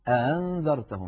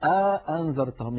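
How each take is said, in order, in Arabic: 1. الهمزة الثانية مسهّلة، غير مغلقة تمامًا. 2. يفصل بين الهمزتين حرف مدّ طويل. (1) "يسهل الهمزة الثانية" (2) "يدخل بين الهمزتين ألفا"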